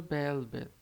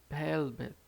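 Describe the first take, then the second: No difference in how they are said.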